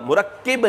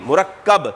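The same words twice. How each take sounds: First: مرکب said as murakkib, with i in the last syllable; wrong pronunciation. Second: مرکب said as murakkab, with a clear a; correct pronunciation. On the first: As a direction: mispronounce مرکب as mu-rak-kib on purpose. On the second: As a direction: give the correct mu-rak-kab for مرکب. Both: Shown as a demonstration. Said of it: "مرکب نہیں، مرکب".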